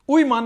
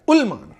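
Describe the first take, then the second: First: उईमान, the wrong way with no L sound; wrong pronunciation. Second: उलमान, with a clear L, a bit louder; correct pronunciation. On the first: Teacher showing the class a mispronunciation, उईमान. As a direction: say it wrongly as उईमान to show the mistake. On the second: Teacher correcting a student's mispronunciation, clear उलमान. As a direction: give the right form उलमान firmly. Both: Shown as a demonstration. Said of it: "उईमान नहीं बेटा".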